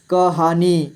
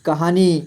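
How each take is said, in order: First: कहानी split into क, हा, नी; syllable by syllable. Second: Said in the usual way. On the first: Shown as a demonstration. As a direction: draw out each syllable of कहानी. (कहानी को तोड़कर: क, हा, नी) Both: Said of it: "थोड़ा फास्ट पढ़ेंगे".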